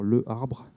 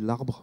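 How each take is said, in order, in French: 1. La voyelle de le se prononce devant arbre. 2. La voyelle de le disparaît devant arbre. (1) "au lieu de dire le arbre" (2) "on dit l'arbre"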